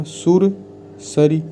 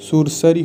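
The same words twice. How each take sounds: First: सुरसरी drawn out slowly, each syllable clear; slow careful model. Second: Said in the usual way. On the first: Shown as a demonstration. Teacher models सुरसरी for students, slow and deliberate. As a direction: spell out सुरसरी for the class, very slow. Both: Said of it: "सुरसरी होगा".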